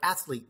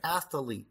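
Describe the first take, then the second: First: The word is said with two syllables. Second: The word is said with three syllables. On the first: The speaker calls it right. "it's only a two-syllable word" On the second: The speaker calls it wrong. "you made it three syllables"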